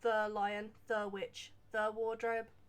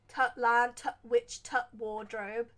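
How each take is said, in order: First: 'The' is said fully with its normal sound. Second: 'The' is reduced to a short 't' sound.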